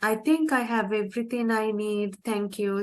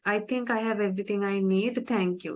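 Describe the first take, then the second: First: The tone sounds warm and friendly. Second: The tone sounds curt and rude. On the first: The speaker seems grateful and polite. The speaker calls it right. "if you say like that, it, it doesn't sound rude" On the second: The speaker seems uninterested in the other person. The speaker calls it wrong. "if you say it that way, it will sound rude"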